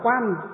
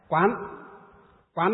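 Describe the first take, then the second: First: The syllable is said with a level tone. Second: The syllable is said with a rising tone. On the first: It means observing with ordinary eyes. "vẫn một chữ đấy nhưng mà đọc là quan" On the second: It means contemplating with the mind's eye of wisdom. "Quán là gì?"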